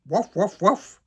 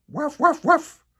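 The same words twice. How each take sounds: First: Louder, rising obedient woofs; Santa's copied yap. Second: High, loud puppy yaps; girl yapping; yapping like a dog. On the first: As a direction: repeat the barks dutifully. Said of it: "le Père Noël répète". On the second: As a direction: bark it out like a small dog. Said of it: "La fille jappe". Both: A narrator's reading.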